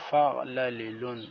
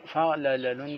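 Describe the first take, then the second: First: فعللن with a short "i" on the second lam, fa'-la-li-lun; correct pronunciation. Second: فعللن with an "a" on the second lam, fa'-la-la-lun; wrong pronunciation. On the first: Teacher correcting the reading for students, فعللن pronounced fa'lalilun. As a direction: sound out فعللن carefully as fa'lalilun. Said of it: "صحیح تلفظ ہے". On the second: Teacher demonstrating the wrong reading, فعللن said as fa'lalalun. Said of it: "فعللن کا تلفظ غلط ہے". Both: Shown as a demonstration.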